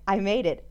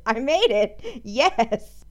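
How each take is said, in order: First: Said in the usual way. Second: Triumphant cheer; excited. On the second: Real, not acted. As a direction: celebrate getting it right. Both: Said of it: "Could you hear the excitement in my voice".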